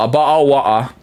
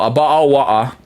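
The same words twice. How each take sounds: First: It is said in a British accent. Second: The same.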